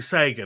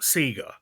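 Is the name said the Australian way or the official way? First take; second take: official; Australian. First: The name is said the official way. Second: The name is said the Australian way. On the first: This is how the company intends it. The speaker calls it right. "it is apparently Sega" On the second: This is how it was said growing up in Australia. The speaker calls it wrong. "not Sega. Growing up in Australia, we would call it Sega"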